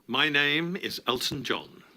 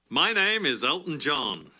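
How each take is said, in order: First: It is said in a more subdued manner. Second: It is said in a more showy manner.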